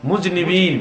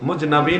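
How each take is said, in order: First: The vowel after the n sounds like 'i'. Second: The vowel after the n sounds like 'a'. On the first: The speaker calls it right. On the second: The speaker calls it wrong. "মুজনাবিন বলবেন না"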